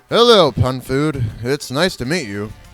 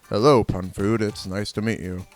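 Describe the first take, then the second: First: It is said in a higher voice. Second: It is said in a very low voice.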